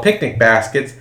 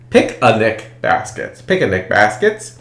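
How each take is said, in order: First: Said in the usual way. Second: Picnic said as pic-a-nic, three syllables; Yogi Bear pic-a-nic. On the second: Retold or imitated. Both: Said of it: "he called picnic baskets".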